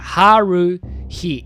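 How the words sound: The name is said with English pronunciation.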